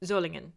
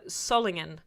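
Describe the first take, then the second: First: SOLINGEN with a German Z sound at the start; German pronunciation. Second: SOLINGEN with an English S and short first vowel; English mispronunciation. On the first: Streamer showing viewers the proper town name, German pronunciation. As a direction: say Solingen as Zoh-lingen, long O. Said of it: "when I was talking about". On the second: Streamer showing viewers the slip they were scolded for, mispronounced. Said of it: "mispronouncing, for, for saying". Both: Shown as a demonstration.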